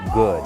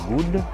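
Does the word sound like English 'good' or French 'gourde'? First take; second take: English good; French gourde. First: The word has a short English 'oo' vowel. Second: The word sounds like French 'gourde'. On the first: The speaker calls it right. "it's good. Good. Good. Pay attention to the sound" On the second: The speaker calls it wrong. "It's not good, comme la, la monnaie haïtienne"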